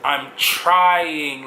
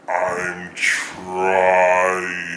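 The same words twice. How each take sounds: First: It is said at normal speed. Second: It is said very slowly and slurred.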